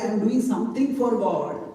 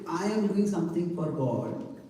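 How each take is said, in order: First: The stress is on the word God. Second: The stress is on the word I.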